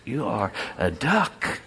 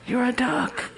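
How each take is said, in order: First: Slowed, deliberate you are a duck with a rising duck; slow insistence. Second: "You're a duck" jumped much higher with a rising "duck"; high insistence. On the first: The duck tells the chicken what he is, slowly. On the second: The duck presses the chicken again in a much higher voice. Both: Acted.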